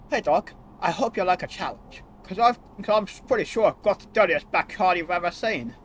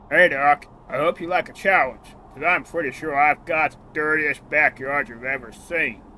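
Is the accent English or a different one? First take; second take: English; different. First: It is said in an English accent. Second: It is said in a non-English accent.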